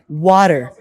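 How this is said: The t sounds like a d. "they would pronounce it like water"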